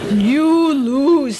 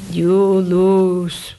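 First: Loud curt verdict leaning on "You"; stress on you. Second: Low, loud terse verdict with weight on lose; a hint of stern Coolidge; Coolidge quote. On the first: Retold or imitated. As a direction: hit "You" hard, then let "lose" drop. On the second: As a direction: drop the voice and land hard on lose like a curt president. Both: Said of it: "what President Coolidge said".

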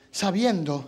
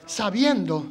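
The two takes are said the same way.

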